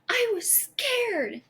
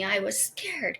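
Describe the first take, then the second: First: High, drawn-out mock yell without much volume; imitated child's yell. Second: Said in the usual way. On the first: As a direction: imitate an upset daughter's high-pitched outburst. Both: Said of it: "she yelled at me".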